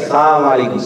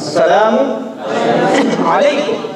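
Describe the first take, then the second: First: The 'salam' part is said unclearly. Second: The 'salam' part is said clearly. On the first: The speaker calls it wrong. "যদি লাম উজ্জ্বল রাখে ... সালাম বলে না স্পষ্ট করে" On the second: The speaker calls it right. "স্পষ্ট করে"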